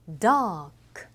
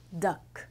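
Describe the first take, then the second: First: ダーク held long and louder; long vowel. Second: ダック clipped short and plain; short vowel. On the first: Teacher contrasting long dark with short duck. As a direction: stretch the あ in ダーク. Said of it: "長いです". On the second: Teacher contrasting short duck with long dark. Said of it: "短い". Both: Shown as a demonstration.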